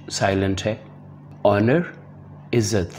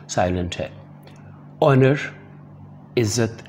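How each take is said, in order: Both takes have the same delivery.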